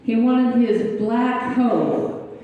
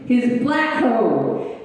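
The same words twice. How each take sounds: First: Slow, deliberate "black hoe"; slow emphasis. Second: Slow, stressed "black hoe"; slow emphasis. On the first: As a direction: draw out "black hoe" for the pun. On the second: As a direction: land "black hoe" slowly for the joke. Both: Retold or imitated. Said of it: "he's screaming at me".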